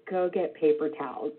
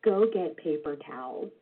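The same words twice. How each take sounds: First: Calm repeat. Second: Low, quiet, even order from dad; very calm. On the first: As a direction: say it again just as calmly. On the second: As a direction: calmly send the kid for towels. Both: Retold or imitated. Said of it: "looked at me very calmly and said".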